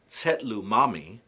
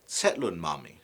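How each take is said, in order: First: The first word ends on a vowel, no n. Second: An n sound links the first word to mami. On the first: The speaker calls it wrong. "instead of saying" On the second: The speaker calls it right. "you would say"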